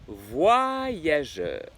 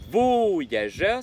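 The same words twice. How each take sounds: First: The first vowel sounds like 'wa'. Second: The first vowel sounds like a plain 'o'. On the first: The speaker calls it right. "le O avec le Y, ça fait wa" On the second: The speaker calls it wrong. "ça fait pas voyageur"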